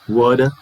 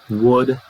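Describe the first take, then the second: The two takes are said the same way.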